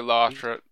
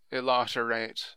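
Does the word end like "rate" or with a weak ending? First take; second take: weak ending; like rate. First: The ending is weak, as in the ordinary word. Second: The ending is said fully, like the word rate. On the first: It is the ordinary word. "It's supposed to be Illiterate" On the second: It sounds like a rating service. "some people have pronounced it Illiterate, as if it's some sort of rating service"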